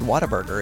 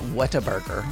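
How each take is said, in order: First: The name is run together as one word. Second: The name is split into separate words. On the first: The speaker calls it right. "But it's all one word" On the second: The speaker calls it wrong. "It's not Whataburger"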